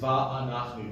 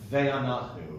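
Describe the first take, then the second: First: The first syllable has an open a vowel. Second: The first syllable has a short e vowel. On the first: The speaker calls it right. "It's va'anachnu. Don't be afraid of the multiple patach" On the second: The speaker calls it wrong. "So many people I know would say"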